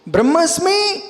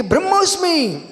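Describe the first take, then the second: First: ब्रह्मास्मि with open long aa before smi; contrasted vowel, aa. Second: ब्रह्मोस्मि with rounded o before smi, falling; contrasted vowel, o. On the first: Teacher quizzing listeners, long aa in ब्रह्मास्मि. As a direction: offer ब्रह्मास्मि with a clear aa. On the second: Teacher quizzing listeners, rounded o in ब्रह्मोस्मि. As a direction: offer ब्रह्मोस्मि with a clear o. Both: Shown as a demonstration. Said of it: "ब्रह्मास्मि कि ब्रह्मोस्मि".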